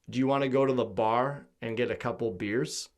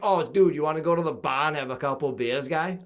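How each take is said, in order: First: It is said in a Midwestern American accent. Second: It is said in a Boston accent.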